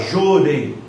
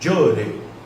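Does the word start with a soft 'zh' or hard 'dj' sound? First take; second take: zh; dj. First: The word starts with a soft 'zh' sound. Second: The word starts with a hard 'dj' sound. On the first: "A gente fala jorei" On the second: "Como se tivesse um D na frente"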